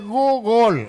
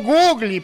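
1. Se pronuncia con el sonido 'gol'. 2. Se pronuncia sin el sonido 'gol'. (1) "acuérdate del gol y dice Google" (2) "Pero no Google"

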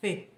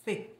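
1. A sílaba começa com um som de th, com a língua entre os dentes. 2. A sílaba começa com um som de th, com a língua entre os dentes.

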